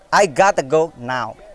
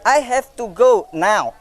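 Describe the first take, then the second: First: Have to is reduced to gotta. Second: Have to is said as two full words.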